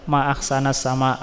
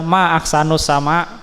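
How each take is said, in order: First: The word ahsan ends with an 'a' vowel. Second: The word ahsan ends with a 'u' vowel. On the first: It exclaims how beautiful the sky is. "betapa bagusnya langit" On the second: It asks what is most beautiful in the sky. "kalau dibaca ma'ahsanus sama, ma-nya nanti jadi istifhamiyah"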